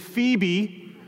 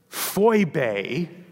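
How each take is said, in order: First: The name is said in its familiar form. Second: The name is said in its original form. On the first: "but we're going to say Phoebe, because so many of you have been trained up on Phoebe" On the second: "if we pronounce it properly"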